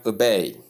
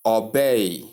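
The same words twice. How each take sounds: First: "obey" with light first vowel, ending in bay; correct pronunciation. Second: "obey" with a heavy aw-like first vowel; mispronunciation demo. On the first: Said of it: "Number eight". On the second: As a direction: say "obey" wrongly as aw-bay. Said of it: "Common error". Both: Shown as a demonstration.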